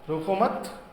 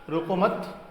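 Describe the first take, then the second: The two takes are said the same way.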